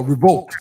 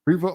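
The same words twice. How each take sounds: First: Revolt with a crisp final T; corrected Revolt. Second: Revolt with the final T dropped; Revolt without T. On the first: Shown as a demonstration. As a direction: sound the T at the end of Revolt. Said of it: "you got a funny accent". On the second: Retold or imitated. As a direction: say Revolt as "ree-voh". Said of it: "I thought you said Revolt".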